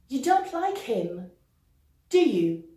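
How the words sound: The pitch falls at the end of the tag. The speaker is sure. "Intonation descendante"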